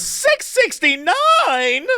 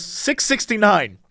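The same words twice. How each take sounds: First: High, very drawn-out outraged disbelief; mock incredulous shriek. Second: Lightly voiced clerk stating a price, drawn out; quoted store clerk. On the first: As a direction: repeat the price as an exaggerated, rising squeal. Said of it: "And the woman goes". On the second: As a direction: imitate a clerk giving the price slowly. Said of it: "She goes".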